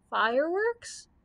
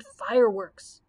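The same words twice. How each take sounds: First: Slow, rising, worried question on "Fireworks?"; quavering. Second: Said in the usual way. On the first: A narrator's reading. Scarecrow echoes the Grand Choo Choo, quavering "Fireworks?". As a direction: stretch "Fireworks?" upward in dismay. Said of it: "quavered the Scarecrow".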